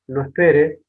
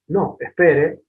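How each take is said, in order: First: There is no pause after "no". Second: There is a pause after "no". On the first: The listener is told not to wait. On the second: The listener is told to wait.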